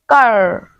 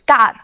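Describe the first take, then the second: First: The r is curled back and drawn out. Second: The r is short, with the tongue touching fully. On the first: "I just scroll my tongue and then I just pushed it a little bit" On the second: "Like we said that car"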